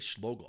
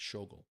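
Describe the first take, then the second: First: The name has an L sound after the first consonant. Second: The name has no L sound after the first consonant. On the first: The speaker calls it wrong. "I always say Schlogel" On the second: The speaker calls it right. "It's Schogel"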